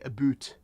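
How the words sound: The word has a Canadian-style vowel sound. "That's how Canadians rightly say about"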